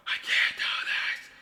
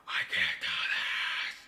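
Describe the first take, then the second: First: Slow, whiny whispered despair, on the edge of crying; whimpering whisper. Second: Slow, pressed whisper-shout of defeat; strained half-shout. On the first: Painter despairing over the painting, slow whimpering whisper. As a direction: whisper it as if about to cry. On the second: Painter giving up on the painting, slow strained whisper-shout. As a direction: push it out in exasperation, very slow. Frustrated breakdown over painting. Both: Real, not acted.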